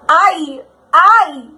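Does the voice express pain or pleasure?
pain. It sounds like a cry of pain.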